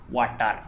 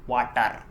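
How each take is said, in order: Both takes have the same delivery.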